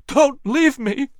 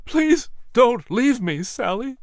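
First: High, slow, desperate cry; panicked plea. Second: High, slow plea, fading at the end; desperate pleading. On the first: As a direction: plead in panic, stretching it out. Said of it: "cried in a panicked voice". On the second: Dying wife, husband pleads. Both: A narrator's reading.

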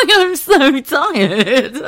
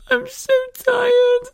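First: High, slow laughing sigh; laughing tiredly. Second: Much higher, slow whimpering whine; whiny tired wail. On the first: Real, not acted. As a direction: giggle out the exhaustion. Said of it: "let me just get my fucking words right". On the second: Retold or imitated. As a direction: wail it like an exhausted child. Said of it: "I went".

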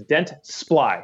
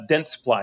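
First: Dentsply slowly in two syllables, Dents-ply; corrected pronunciation. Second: Dentsply said in three syllables, Dent-suh-ply; wrong pronunciation. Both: Shown as a demonstration. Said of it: "it's two syllables".

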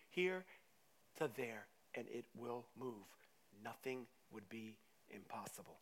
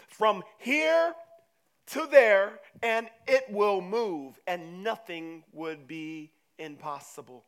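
First: Low, soft, measured statement; quiet assurance. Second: Slow, loud, drawn-out proclamation; forceful declaration. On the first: Jesus telling disciples faith moves mountains, quiet assurance. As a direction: bring it down gently and sincerely. Same verse repeated quietly, earnestly. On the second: Jesus telling disciples faith moves mountains, forceful proclamation. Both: Acted.

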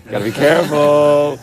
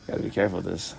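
First: Slow, drawn-out, louder warning; playful slow "careful" to friends; mock cautious. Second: Said in the usual way. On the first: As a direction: ham up the caution as a bit. Wary joke before a careful move.

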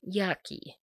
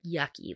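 First: Grossed-out yucky. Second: Said in the usual way. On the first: Real, not acted. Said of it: "that's just the word, like, yucky". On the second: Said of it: "that's just the word".

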